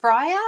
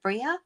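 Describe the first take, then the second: First: First guess, "Bria" with a long I like "briar"; "Bria" said BRY-uh, questioning; name pronunciation. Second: Second guess, "Bria" with an EE in the first syllable; "Bria" said BREE-uh, questioning; name pronunciation. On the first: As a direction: say "Bria" as BRY-uh, rhyming with fire. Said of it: "don't say this wrong". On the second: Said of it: "How do I pronounce it". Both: Shown as a demonstration.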